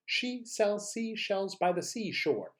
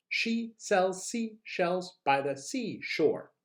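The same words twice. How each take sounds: First: Slightly high, moderately paced drill; quicker tongue twister. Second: Very slow, word-by-word delivery; slow tongue twister. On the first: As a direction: run the words together more smoothly. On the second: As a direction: separate each word carefully for learners. Models tongue twister slowly before repeats. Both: Shown as a demonstration.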